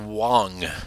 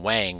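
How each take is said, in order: First: The vowel sounds like the one in 'long'. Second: The vowel sounds like the one in 'bang'. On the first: It follows the name's cultural origin. The speaker calls it right. "it's pronounced Wong" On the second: It is read straight from the spelling. The speaker calls it wrong. "that's an Americanized pronunciation based on just spelling alone"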